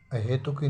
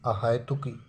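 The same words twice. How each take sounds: First: अहेतुकी with single e vowel, he; wrong pronunciation. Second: अहेतुकी with wide hai in the middle; correct pronunciation. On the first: Teacher rejects the misspelling, अहेतुकी with plain e. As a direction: say he in the middle of अहेतुकी. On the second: Teacher corrects the vowel, अहेतुकी said a-hai-tuki. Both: Shown as a demonstration. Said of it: "अहेतुकी नहीं".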